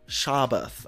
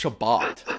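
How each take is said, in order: First: The final sound is a soft, lisped th. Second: The final sound is a crisp, firm t. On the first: It is meant to sound limp and floppy. The speaker calls it right. "you need to say it in this in this lispy way" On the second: It is meant to sound firm. The speaker calls it wrong. "when you go in for a handshake and it's all firm"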